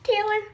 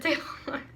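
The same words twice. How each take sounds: First: Put-on high, girlish-shy squeak of a name; hammed-up coy answer, pitched way up; mock bashful. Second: Soft, shy reply; bashful. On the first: Mocking her younger self's answer, exaggeratedly bashful. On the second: A narrator's reading. Taylor answers the boy band's question, bashfully. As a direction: give the name softly, blushing. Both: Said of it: "I replied bashfully".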